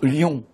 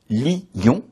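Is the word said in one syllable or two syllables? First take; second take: one syllable; two syllables. First: The word is said as one syllable. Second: The word is split into two syllables. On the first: "on prononce lion en une syllabe" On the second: "On prononce lion en deux syllabes"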